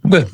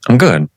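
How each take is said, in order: First: It is said quickly, without a breath. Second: It is said slowly, after a breath.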